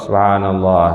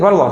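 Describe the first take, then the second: First: It is said carefully and unhurried. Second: It is said hurriedly to finish fast.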